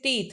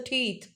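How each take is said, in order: First: The t has no puff of air. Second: The t has a puff of air. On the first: The speaker calls it wrong. "In Indian context, we taste teeth" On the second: The speaker calls it right. "Actually, it's a teeth. ... so that's her sound"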